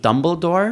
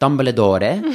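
First: The name is said with an English pronunciation. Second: The name is said with an Italian-sounding pronunciation. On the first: "Auf Englisch sagt man" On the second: "Als wäre ich ein Italiener"

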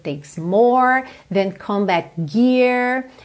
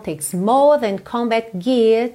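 First: The R sounds are pronounced with a curled tongue. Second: The R sounds are dropped and the vowels stretched. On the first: "poderiam estar, ok? Poderia ser" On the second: "esses R's que não estão enrolados"

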